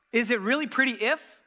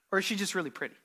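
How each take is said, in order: First: "if" lifted on a rising, hanging tune; stress on if. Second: "just" leaned on, falling, settled close; stress on just. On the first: Pastor poses the conditional option to the congregation with the stress on "if". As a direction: lean on "if" and leave it hanging. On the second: Pastor gives the unconditional answer with the stress on "just". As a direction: land firmly on "just" and let it fall. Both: Shown as a demonstration. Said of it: "So which is it?".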